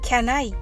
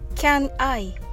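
First: The two words run together as one. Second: The two words are said separately. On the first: The speaker calls it right. "Can I と聞こえます" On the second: The speaker calls it wrong. "Can I ではなく"

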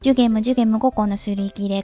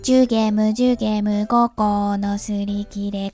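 First: It is said faster than normal. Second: It is said at a normal pace.

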